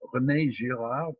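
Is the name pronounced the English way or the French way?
French. The name is pronounced with French sounds. "to use the French pronunciation"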